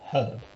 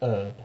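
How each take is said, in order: First: The word is said the British way. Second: The word is said the American way. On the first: The speaker calls it right. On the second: The speaker calls it wrong.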